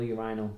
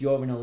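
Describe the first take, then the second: First: "urinal" stressed on the middle syllable; urinal, second pronunciation. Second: "urinal" stressed on the first syllable; urinal, first pronunciation. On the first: Unsure how to say the word, "urinal" as yoo-RYE-nal. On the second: Unsure how to say the word, "urinal" as YOOR-i-nal. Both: Shown as a demonstration. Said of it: "I never know if it's urinal or urinal".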